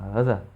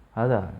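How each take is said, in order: No difference in how they are said.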